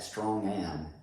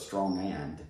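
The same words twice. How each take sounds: First: The final D of 'and' is dropped. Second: The final D of 'and' is pronounced. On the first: "natives don't pronounce this letter D at the end of the word and, so it'll sound like strong and" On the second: "instead of strong and"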